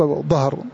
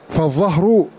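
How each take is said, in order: First: The first consonant is the ḍād sound (ض). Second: The first consonant is the ẓāʾ sound (ظ). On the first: The speaker calls it wrong. "العوام ينطقون بالضاد" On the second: The speaker calls it right. "بالضاء ولا ينطق بالضاد"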